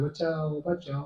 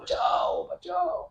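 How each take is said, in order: First: The cry for help is soft and weak. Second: The cry for help is loud and forceful. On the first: The person seems to be only pretending. The speaker calls it wrong. "ऐसे हल्के हल्के चिल्ला रहे" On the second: The person is truly in danger. The speaker calls it right. "आपको जोर से चिल्लाना पड़ेगा"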